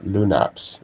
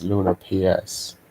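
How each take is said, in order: First: The whole name is said as one word. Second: The ending is spelled out as separate letters. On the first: "Lunaps if you want to say it like that" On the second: "it's Luna P S"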